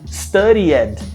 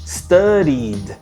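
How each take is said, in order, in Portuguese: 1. O final é falado com uma vogal extra. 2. O final é falado sem uma vogal extra. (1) "A gente escuta muitas pessoas pronunciando studied, mas não existe studied" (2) "e aí eu faço studied"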